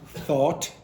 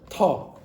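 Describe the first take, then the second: First: It begins with a soft th sound. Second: It begins with a hard t sound. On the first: The speaker calls it wrong. "it's not thought" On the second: The speaker calls it right. "they'll say t instead"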